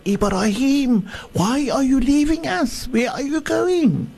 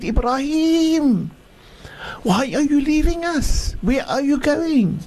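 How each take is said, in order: First: High, pleading call after him; desperate shout. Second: Desperate shout. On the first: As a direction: cry out, begging him not to leave. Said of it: "she shouted to Ibra". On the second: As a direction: call out to him once more, pleading. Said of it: "she shouted and she said". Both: Acted.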